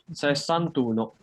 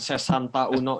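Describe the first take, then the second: First: The final a is dropped, merging into uno. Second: The final a is kept before uno. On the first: The speaker calls it right. "Itu dia itu menjadi sesantuno" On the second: The speaker calls it wrong. "Jadi itu bukan sesanta uno ya"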